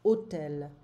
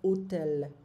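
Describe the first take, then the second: First: The word begins directly with the vowel sound. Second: The same.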